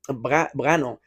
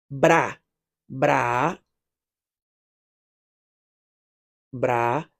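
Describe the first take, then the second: First: "bra" said like someone who struggles; clumsy bra. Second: "bra" with a clean rolled r; Portuguese bra. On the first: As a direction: stumble on "bra" like a poor speaker. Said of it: "yon moun ki gen difikilte pou pwononse". (pwononse "bra" tankou moun ki gen difikilte) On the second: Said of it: "Men nan pòtigè, ou va di bra". (pwononse "bra" jan pòtigè a) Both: Shown as a demonstration.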